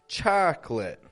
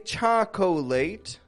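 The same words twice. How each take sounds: First: The word is said with two syllables. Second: The word is said with three syllables. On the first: The speaker calls it right. "but rather chocolate" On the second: The speaker calls it wrong. "We do not say chocolate"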